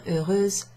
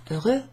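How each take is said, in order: First: "heureuse" closing on a voiced z; feminine ending. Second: "heureux" ending on an open eu vowel, x silent; masculine ending. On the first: Teacher contrasting genders, "heureuse" with z-final feminine ending. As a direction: finish "heureuse" with a buzzed z sound. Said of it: "euse in the feminine". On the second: Teacher contrasting genders, "heureux" with vowel-final masculine ending. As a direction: end "heureux" on the vowel, no consonant. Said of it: "that's the same ending, e, in the masculine". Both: Shown as a demonstration.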